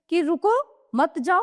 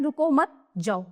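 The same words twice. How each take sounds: First: रुको alone, a clear break, then मत जाओ; pause after रुको. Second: रुको मत as one unit, then जाओ alone; pause after मत. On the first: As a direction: stop after रुको and say मत जाओ as one unit. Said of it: "इनके दोनों के अलग-अलग मतलब हो गए". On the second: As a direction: run रुको into मत, stop before जाओ. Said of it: "और इसमें है". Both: Shown as a demonstration.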